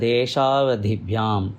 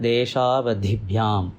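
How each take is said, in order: The two takes are said the same way.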